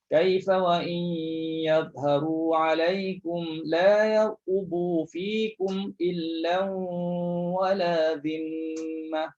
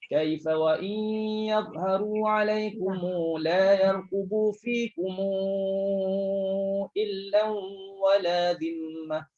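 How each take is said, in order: First: Each 'kum' ends on a closed m sound. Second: The 'kum' before 'illa' gets a vowel held four counts. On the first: "Track pertama, matikan minjamak" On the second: "untuk yang bertemu hamzah barulah baca dengan empat harakat"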